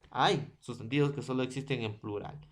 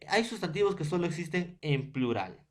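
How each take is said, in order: First: Fast, softer restatement of "Hay sustantivos que solo existen en plural"; quick quiet repeat. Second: Said in the usual way. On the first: Shown as a demonstration. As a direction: rule repeated faster and quieter. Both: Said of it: "repeats the rule".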